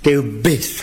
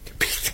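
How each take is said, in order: First: It is said loudly and clearly. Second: It is said in a whisper.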